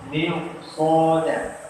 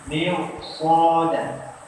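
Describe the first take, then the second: Both takes have the same delivery.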